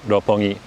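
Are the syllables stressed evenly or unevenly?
evenly. Every syllable gets similar stress. "Every syllable has three, uh, has a similar stress"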